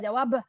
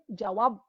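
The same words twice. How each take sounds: First: The final b is fully released. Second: The final b is held without release. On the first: "Beh tu kita lepas" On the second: "Nak sebut beh tapi tak lepas"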